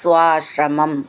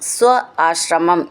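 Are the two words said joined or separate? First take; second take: joined; separate. First: The two words are run together as one. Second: The two words are said separately.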